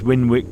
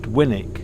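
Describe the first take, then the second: First: The second syllable is said with a w sound. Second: The second syllable is said without a w sound.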